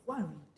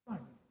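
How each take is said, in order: First: Said in the usual way. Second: Low soft echo. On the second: Shown as a demonstration. Preacher echoing the command, low and soft. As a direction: Go and read dropped low and soft. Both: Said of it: "repeated command".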